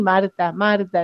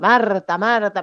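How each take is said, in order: First: It is said in a warm, loving tone. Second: It is said in a scolding, reproachful tone.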